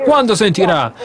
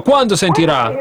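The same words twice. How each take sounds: First: "Quando sentirà?" pressed with a falling tune; insistent repeat. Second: "Quando sentirà?" asked with a rising tune; mock the faithful with a doubtful rise; scornful question. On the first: Retold or imitated. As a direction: hammer the taunt home, falling. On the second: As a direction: hands on hips, questioning rise. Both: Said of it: "ha messo le mani sui fianchi e ha detto".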